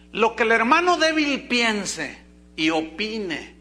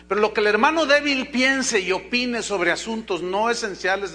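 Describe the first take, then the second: First: Each word of "Lo que el hermano débil piense y opine" spoken slowly, with "hermano" stressed; slow emphatic statement. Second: Said in the usual way. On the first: Shown as a demonstration. Preacher asks the congregation to pay attention, slow and emphatic. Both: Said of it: "pongan atención a lo que voy a decir".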